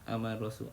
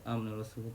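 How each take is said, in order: First: The long vowel is held briefly, about two counts. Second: The same.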